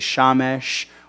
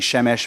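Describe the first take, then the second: First: The first vowel sounds like 'a'. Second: The first vowel sounds like 'e'. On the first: This is the form used at the end of a sentence. "we say Shamesh" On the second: This is the ordinary form of the word. "instead of saying Shemesh"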